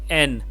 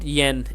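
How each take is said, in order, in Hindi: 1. अक्षर के नाम की शुरुआत बिना य की ध्वनि के होती है। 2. अक्षर के नाम की शुरुआत य की ध्वनि से होती है। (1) "but N" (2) "It is not yen"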